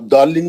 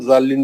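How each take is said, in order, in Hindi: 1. यह शब्द D ध्वनि से शुरू होता है। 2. यह शब्द Z ध्वनि से शुरू होता है। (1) "आप दौलिन भी पढ़ सकते हैं" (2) "आप जालिन भी पढ़ सकते हैं"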